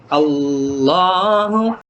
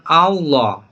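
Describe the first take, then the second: First: The word ends with a final 'u' vowel. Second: The word ends without a final vowel. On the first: The speaker calls it right. "tapi Allahu" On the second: The speaker calls it wrong. "bukan Allah"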